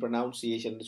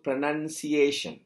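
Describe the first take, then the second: First: The second syllable sounds like 'noun'. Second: The second syllable sounds like 'nun'. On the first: The speaker calls it wrong. "அது வந்து பிழை" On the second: The speaker calls it right. "இதை நன் என்று சொல்லணும்"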